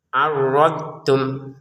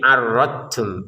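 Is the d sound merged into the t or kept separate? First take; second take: separate; merged. First: The d sound is kept separate before t. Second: The d sound is merged into the t. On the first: The speaker calls it right. "yang benar adalah arrod, kita mengucapkan dotnya ini arrod kemudian tum" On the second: The speaker calls it wrong. "Jangan sampai dimasukkan ke ta"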